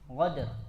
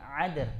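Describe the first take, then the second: First: It begins with a gargled gh sound. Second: It begins with a throaty ain sound. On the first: "merubah eh, qaf menjadi ghain" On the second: "Dia merubah dari kepada huruf ain juga nggak boleh"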